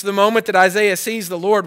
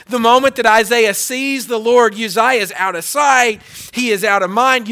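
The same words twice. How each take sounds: First: Said in the usual way. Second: Louder, driving each phrase home; rising pulpit emphasis; emphatic preaching. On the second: Acted. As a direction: preach it harder the second time. Repeated line, second take emphatic.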